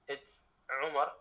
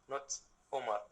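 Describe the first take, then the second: First: It starts with a tight, throaty sound. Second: It starts with a plain, open vowel. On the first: The speaker calls it right. "if you want to say my name one hundred percent correctly" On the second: The speaker calls it wrong. "everyone is saying it Omar"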